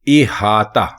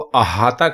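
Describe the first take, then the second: First: The word begins with an 'i' vowel. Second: The word begins with an 'a' vowel. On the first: The speaker calls it right. "अलिफ के नीचे जेर लगाकर लिखना और बोलना है इहाता" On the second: The speaker calls it wrong. "अगर आप इसको अहाता कहेंगे ... तो यह गलत होगा"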